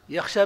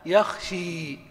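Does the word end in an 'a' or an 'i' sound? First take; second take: a; i. First: The word ends in a long open 'a'. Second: The word ends in a long 'i' sound. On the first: "يخشى بالألف" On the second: "لو قلبنا الألف ياء"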